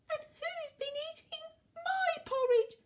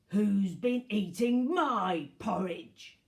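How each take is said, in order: First: It is said in a tiny voice. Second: It is said in a gruff voice.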